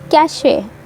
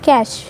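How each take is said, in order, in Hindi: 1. यह एक अतिरिक्त ay स्वर से खत्म होता है। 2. यह सादे sh ध्वनि से खत्म होता है।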